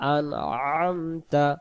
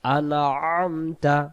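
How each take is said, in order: The two takes are said the same way.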